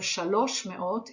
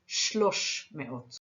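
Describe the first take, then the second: First: The first word keeps its full two syllables. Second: The first word is shortened to one syllable. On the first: The speaker calls it wrong. "instead of" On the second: The speaker calls it right.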